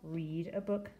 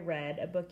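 First: The vowel in 'read' is a long 'ee', like 'reed'. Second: The vowel in 'read' is a short 'eh', like 'red'. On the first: The reading will happen in the future. "I will read a book tonight" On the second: The reading happened in the past. "I read a book yesterday"

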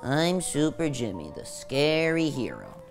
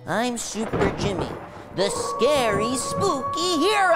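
First: It is said half-heartedly, without conviction. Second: It is said with conviction, like he means it.

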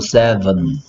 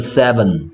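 First: The second syllable has a reduced vowel. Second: The second syllable keeps a full vowel. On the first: The speaker calls it right. "힘을 세게 안 하는 부분은 전부 다 어가 돼버려" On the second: The speaker calls it wrong. "seven은 아니고"

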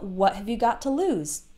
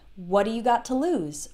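First: The word 'have' is pronounced fully and clearly. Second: The word 'have' is reduced and shortened.

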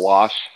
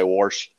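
First: The word is said without an r sound. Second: The word is said with an r sound. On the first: "there's no R in that" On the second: "My kids give me crap all the time because every once in a while I'll say"

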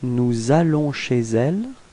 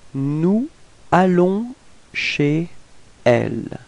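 First: Final consonants link into the following vowel-initial words. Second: The words are kept separate without linking consonants.

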